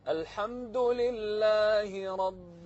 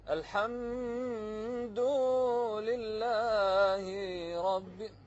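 First: The phrase is recited with normal vowel length. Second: The phrase is recited with vowels stretched out long. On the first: The speaker calls it right. "لكن المطلوب" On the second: The speaker calls it wrong. "التمطيط شنو؟"

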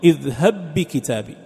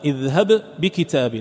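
First: The two b sounds merge into one doubled b. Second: The first b is released separately with an echo. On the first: "لكن عند الإدغام" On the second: "بغير إدغام اذهب تظهر القلقلة"

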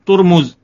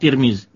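First: The vowels are rounded u-sounds. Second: The vowels are front i-sounds. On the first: "Ada pula yang membacakan domah, ya, baris depan" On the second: "Tirmiz bi kasri huwa al-mustafid ala al-asnah. Jadi itu yang banyak diucapkan orang"

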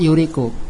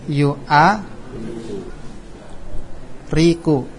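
First: The word is said without a glottal-stop syllable. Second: The word has an added glottal-stop syllable. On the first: The speaker calls it right. "Dihapus kan?" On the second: The speaker calls it wrong. "Kalau enggak dihapus"

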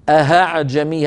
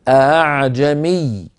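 First: The second glottal stop is replaced by an h sound. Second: The second glottal stop is softened, without full closure. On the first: The speaker calls it wrong. "أما أن نقول أهعجمي أهعجمي هكذا" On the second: The speaker calls it right. "بتسهيل الهمزة الثانية هكذا ... الهمزة الأولى محققة والثانية همزة ليست شديدة"

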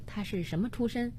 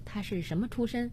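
First: The line is said lightly, in a toned-down way. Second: The line is said lightly, in a toned-down way.

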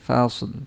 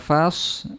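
First: A light l sound is heard at the end. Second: The word ends without any l sound. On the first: The speaker calls it right. "Lamnya terucap sedikit" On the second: The speaker calls it wrong. "orang nanti mengiranya sod terakhirnya"

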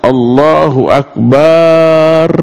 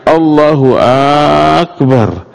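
First: The vowel in bar is drawn out long. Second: The first vowel of Akbar is drawn out long. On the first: It means God is drums. "Atau yang dipanjangkan itu barnya" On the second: It asks whether God is great. "Atau A pada Akbarnya"

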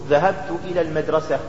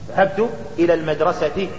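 No difference in how they are said.

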